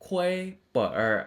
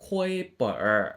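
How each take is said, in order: Both takes have the same delivery.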